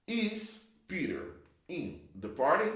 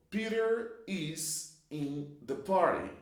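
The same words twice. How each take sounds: First: "party" lifted into a rising question tune; question rise. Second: Said in the usual way. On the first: Shown as a demonstration. Teacher modelling question intonation by rising on "party". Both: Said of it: "To make questions, you invert".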